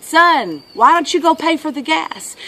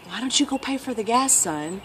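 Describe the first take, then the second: First: Raised-voice father, mild yell; higher, projected fatherly request; dad calling out. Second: Soft, casual retelling of Dad; dad's gentle request. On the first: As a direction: imitate a dad calling to his son. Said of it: "the dad yelled out to him". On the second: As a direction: quote a father asking softly. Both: Retold or imitated.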